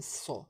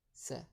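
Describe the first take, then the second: First: Sa avec un s emphatique et un a grave; première lettre sa. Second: Sa avec un s simple et un a clair; deuxième lettre sa. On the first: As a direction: sa dit épais, comme le ṣad. (sa prononcé grave et appuyé) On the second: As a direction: sa dit léger, comme le sin. (sa prononcé clair et léger) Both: Shown as a demonstration. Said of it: "Distinguez bien ... entre sa et sa".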